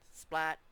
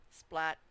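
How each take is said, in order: First: The voice sounds flat and robotic. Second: The same.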